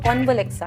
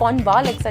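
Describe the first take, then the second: First: The vowel after 'conv' is silent. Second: The vowel after 'conv' is clearly pronounced. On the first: The speaker calls it right. "जो ए है वो silent हो जाता है" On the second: The speaker calls it wrong. "वो कॉन्वालेक्सा नहीं"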